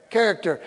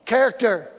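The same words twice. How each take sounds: First: Said in the usual way. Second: CHARACTER hit hard with a falling end; emphatic repeat. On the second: Shown as a demonstration. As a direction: punch the word Character, then let it fall.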